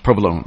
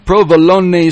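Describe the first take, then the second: First: The final E is silent. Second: The final E is pronounced as a syllable. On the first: The speaker calls it right. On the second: The speaker calls it wrong.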